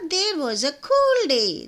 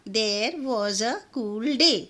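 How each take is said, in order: First: It is said quickly, words running together. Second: It is said at a normal, slower pace.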